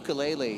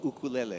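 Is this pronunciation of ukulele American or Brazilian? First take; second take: American; Brazilian. First: It is said the way Americans say it. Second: It is said the way Brazilians say it. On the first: This is how it is commonly said in the US. "in the U S a lot of times people say ukulele" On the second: This is the original way to say the word. "in Brazil that you guys say ukulele because that's the right way to say it"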